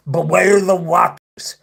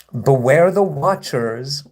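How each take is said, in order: First: Slow, higher, hammed-up villain warning; mock supervillain. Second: Said in the usual way. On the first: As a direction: intone it as a cartoonish mock threat. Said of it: "like, supervillain voice". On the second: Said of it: "your supervillain act is silly".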